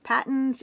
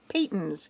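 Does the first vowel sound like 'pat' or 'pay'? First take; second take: pat; pay. First: The first vowel sounds like the vowel in 'pat'. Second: The first vowel sounds like the vowel in 'pay'. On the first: The speaker calls it wrong. "it's not pronounced Pattons" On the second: The speaker calls it right. "it's pronounced Paytons because it's the family name"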